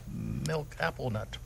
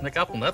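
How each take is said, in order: First: The phrase is said slowly, word by word. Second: The phrase is said quickly, words run together.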